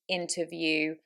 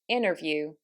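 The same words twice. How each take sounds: First: The T after the N is clearly pronounced. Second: The T after the N is dropped. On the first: "In the British accent, those, as you can hear, are said" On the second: "But in an American accent, that would be"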